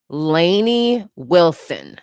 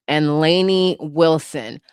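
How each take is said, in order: First: Slow name reading. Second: Said in the usual way. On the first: Real, not acted.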